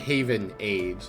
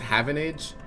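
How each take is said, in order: First: The name is said as two separate words. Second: The name is run together as one word. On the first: The speaker calls it right. "I'm pretty sure it's supposed to be Haven Age" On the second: The speaker calls it wrong. "I keep reading this as Havenage"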